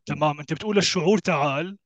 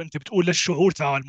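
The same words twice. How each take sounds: First: للشعور rising, تعال lifted at the end; stress on feeling, rising. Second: للشعور leaned on, تعال dropping at the end; stress on feeling. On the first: Restating the correction to his co-host, للشعور stressed with a rise. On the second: Correcting his co-host on the wording, stress on للشعور. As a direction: lean on للشعور and let تعال fall. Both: Shown as a demonstration. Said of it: "مو بتقول للفكرة".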